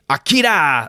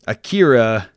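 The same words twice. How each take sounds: First: It is said with a Japanese-style accent. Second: It is said with an American accent.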